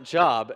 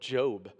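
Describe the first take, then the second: First: The vowel is short, rhyming with lob. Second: The vowel is long, rhyming with robe. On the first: It means work or employment. The speaker calls it wrong. "not Job" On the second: It names the book of the Bible. The speaker calls it right. "I think you're talking about the book of Job"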